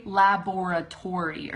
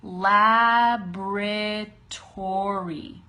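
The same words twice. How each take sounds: First: "laboratory" as five-syllable "la-bor-a-tory"; wrong pronunciation. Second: "laboratory" stretched as "LAB-ruh-tory"; very slow "laboratory", LAB first and strong; slow correct pronunciation. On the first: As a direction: sound the first O in "laboratory". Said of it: "Don't say laboratory". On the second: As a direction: drag out "laboratory" by syllable, no first O. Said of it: "Say laboratory". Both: Shown as a demonstration.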